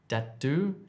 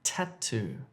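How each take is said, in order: First: The word begins with a d sound. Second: The word begins with a t sound. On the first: The speaker calls it wrong. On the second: The speaker calls it right.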